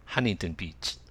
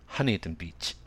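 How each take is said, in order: First: It is said with English sounds. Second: The same.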